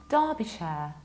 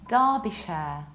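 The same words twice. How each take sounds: No difference in how they are said.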